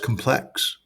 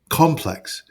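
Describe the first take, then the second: First: The word is said in a plain, ordinary way. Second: The word is said in an overly fancy way. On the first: The speaker calls it right. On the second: The speaker calls it wrong. "You're you were too fancy"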